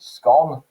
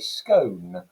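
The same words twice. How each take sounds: First: The vowel is a flat single vowel sound. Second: The vowel glides as a diphthong sound. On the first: The speaker is from the north of England. "with that kind of flat vowel sound that you'd associate with the north of England" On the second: The speaker is from the south of England. "with a diphthong sound in the middle in that vowel"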